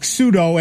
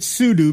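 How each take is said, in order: First: It sounds like the word 'pseudo'. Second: It ends like the word 'do'. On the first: It means fake. "as in P-S-E-U-D-O" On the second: It stands for super user do. "because it's a super user do"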